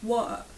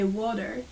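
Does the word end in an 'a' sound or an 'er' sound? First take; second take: a sound; er sound. First: The word ends in an open 'a' sound. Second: The word ends in an 'er' sound. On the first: The speaker calls it right. "you say; words ending on er get more an a sound at the end" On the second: The speaker calls it wrong. "You don't say"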